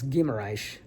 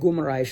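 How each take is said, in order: First: The first syllable has an 'ee' vowel. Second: The first syllable has an 'oo' vowel. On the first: The speaker calls it right. "It's Gimaraish" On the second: The speaker calls it wrong. "I keep saying Gumaraish"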